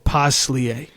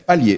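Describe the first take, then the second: First: The name is said with an S sound. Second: The name is said without an S sound. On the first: The speaker calls it wrong. "I think sometimes I say it with the S" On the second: The speaker calls it right. "you don't pronounce the S"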